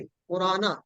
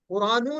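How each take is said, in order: First: कुराना ending in an open "aa"; the correct कुराना, finished on "na"; zabar ending. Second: कुरानू ending in a long "oo"; the incorrect कुरानू, closed on "nū"; wrong final vowel. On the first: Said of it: "जबर के साथ आएगा". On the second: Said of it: "कुरानू नहीं है, कुराना". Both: Shown as a demonstration.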